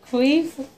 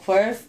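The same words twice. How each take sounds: First: Said in the usual way. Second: "queef" said as "kwerf"; mispronounced queef. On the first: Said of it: "What is it?". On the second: Real, not acted. Unsure of the word while telling friends her story, mispronounced "queef". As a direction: stumble on "queef" with an r-colored vowel, like "kwurf". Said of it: "I'm saying it wrong".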